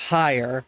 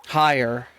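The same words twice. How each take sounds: The two takes are said the same way.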